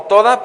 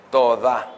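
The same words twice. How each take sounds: First: Said in the usual way. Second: "toda" with the stress on its last A; accent on final A. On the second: Shown as a demonstration. Preacher teaching the congregation a Hebrew word, "toda" stressed on final A. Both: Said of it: "pero con acento en la A".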